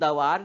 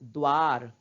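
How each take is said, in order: First: The d is followed by a full vowel. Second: The d joins the v as a cluster. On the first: The speaker calls it wrong. "इसको हम दवार नहीं बोलते ना" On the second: The speaker calls it right. "क्योंकि द का उच्चारण हम आधा ही कर रहे हैं"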